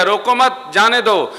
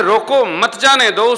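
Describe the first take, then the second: First: Loud, high रोको मत as one unit, then जाने दो; group मत with रोको; break after मत. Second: Loud, high रोको set off from मत जाने दो; group मत with जाने दो; break after रोको. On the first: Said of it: "सुनने वाले ने सुन लिया". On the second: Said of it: "कहा गया है". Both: Shown as a demonstration.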